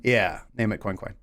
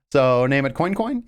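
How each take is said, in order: First: "Coin Coin" low and falling; settled answer. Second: "Coin Coin" rising as a question. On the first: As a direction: drop "Coin Coin" down as a decided reply. Answers own question in lower voice. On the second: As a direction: float "Coin Coin" upward, asking. Asks, then answers the same suggestion. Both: Pretend.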